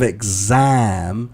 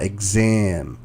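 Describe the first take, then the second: First: The vowel in exam sounds like ah. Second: The vowel in exam sounds like eh. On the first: The speaker calls it right. "instead of" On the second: The speaker calls it wrong. "it was more exam. So it's an eh sound that you are making"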